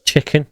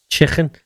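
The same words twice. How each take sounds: First: "chicken" forced with a clean K, sounding awkward; a stiff, careful "chicken". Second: "Chicken" said with a crisp, clean K and no throaty roll; "Chicken" with a plain hard K sound. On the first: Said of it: "if I try and do it without". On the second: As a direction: say "Chicken" with a careful proper K. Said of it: "trying to say chicken, but properly without the roll of the K". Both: Shown as a demonstration.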